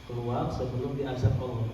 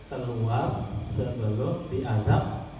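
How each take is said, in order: First: Low, soft warning to a spirit; hushed, low-pitched warning at normal pace; quiet command. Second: Low, drawn-out command; slow, measured order to get out; slow stern warning. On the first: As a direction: order it out calmly, without force. Demonstrates warning, first take. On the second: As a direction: stretch each word of the threat. Repeats warning as last weapon. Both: Shown as a demonstration.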